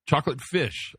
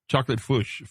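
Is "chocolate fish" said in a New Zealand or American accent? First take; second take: American; New Zealand. First: It is said in the speaker's own accent. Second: It is said in a New Zealand accent.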